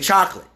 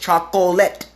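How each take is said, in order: First: It uses the common American pronunciation. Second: It uses the original, fuller pronunciation. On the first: The speaker calls it wrong. "Most Americans mispronounce chocolate all the time. They say chocolate" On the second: The speaker calls it right. "The original word, how to pronounce that word, is chocolate"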